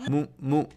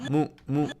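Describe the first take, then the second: Both takes have the same delivery.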